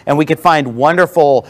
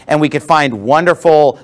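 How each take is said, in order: Both takes have the same delivery.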